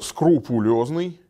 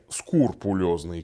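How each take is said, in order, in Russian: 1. Слово начинается со звуков skru. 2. Слово начинается со звуков skur. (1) "следует произносить" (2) "не «скурпулезный», как многие произносят"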